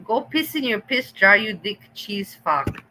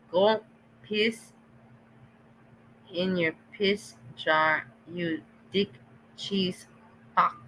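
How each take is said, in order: First: Quoting the insult back with relish; mock quote of the insult; mocking repeat. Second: Each word spaced out and slow; deliberate slow quote of the insult; slow mock repeat. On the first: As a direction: throw the insult back, half laughing. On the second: Shown as a demonstration. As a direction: spell out the insult word by word, slowly. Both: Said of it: "That's what it was".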